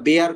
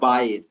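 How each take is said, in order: First: The name rhymes with the English word air. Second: The name has an eye vowel ending in r. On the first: The speaker calls it wrong. "এটা বেয়ার category নয়" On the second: The speaker calls it right. "এটা এটা বাইর। প্রোনাউন্সিয়েশনটা Latin."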